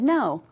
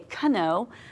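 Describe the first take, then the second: First: The word starts with an n sound. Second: The word starts with a k sound. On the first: The speaker calls it right. "we said no" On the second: The speaker calls it wrong. "we didn't say kano"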